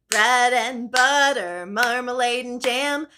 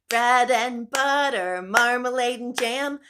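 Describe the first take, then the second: The two takes are said the same way.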